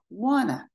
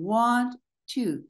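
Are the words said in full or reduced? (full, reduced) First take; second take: reduced; full. First: The words are pushed together into one reduced form. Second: Both words are said fully and separately.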